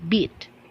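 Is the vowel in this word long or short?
short. The vowel is held shorter, British style. "In the British English, they will pronounce it as beat"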